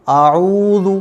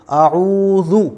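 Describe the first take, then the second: First: आऊज़ु with a long opening आ; wrongly stretched hamza. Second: आऊज़ु with short first a, long ऊ; quick first vowel, stretch the ऊ in आऊज़ु; correct short hamza. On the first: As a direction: drag the first vowel of आऊज़ु. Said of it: "अगर आप इसको ऐसे पढ़ेंगे". (आऊज़ु का हमज़ा खींचकर, ग़लत) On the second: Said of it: "तो फिर ये गलत हो जाएगा". (आऊज़ु में हमज़ा छोटा, ऊ लंबा) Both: Shown as a demonstration.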